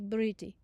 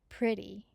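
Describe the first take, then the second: First: It starts with b and a broken cluster. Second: It starts with p and a pr cluster. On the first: "They will say briti" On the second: "Instead of saying"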